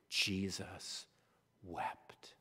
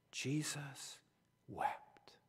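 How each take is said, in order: First: Soft, hushed, slow reading of the verse; hushed reverent. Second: Almost whispered, breathless and slow. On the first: Preacher reading the shortest verse, hushed. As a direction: let it fall to a hush. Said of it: "shortest verse, said softly". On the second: Preacher repeats the verse as a whisper. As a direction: breathe the words out. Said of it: "repeated as a whisper". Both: Shown as a demonstration.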